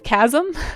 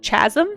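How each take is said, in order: First: The word begins with a k sound. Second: The word begins with a ch sound. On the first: The speaker calls it right. "instead of chasm" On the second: The speaker calls it wrong. "I pronounced it uh, chasm"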